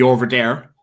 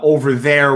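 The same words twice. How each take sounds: First: 'There' begins with a d sound. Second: 'There' begins with a th sound.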